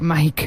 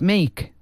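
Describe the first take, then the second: First: The vowel sounds like 'eye', as in Mike. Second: The vowel sounds like 'ay', as in make. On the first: The speaker calls it wrong. "El no es" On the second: The speaker calls it right. "Es Make"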